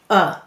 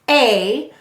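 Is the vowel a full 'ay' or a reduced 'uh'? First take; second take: reduced 'uh'; full 'ay'. First: The vowel is a reduced 'uh' sound. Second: The vowel is a full 'ay' sound. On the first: "when it's lazy, we read it uh" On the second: "this we say to spell A"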